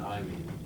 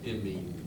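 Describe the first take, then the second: First: The first vowel is a long 'eye' sound. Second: The first vowel is a short 'ih' sound. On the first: The speaker calls it wrong. "not I mean" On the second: The speaker calls it right. "It's imine"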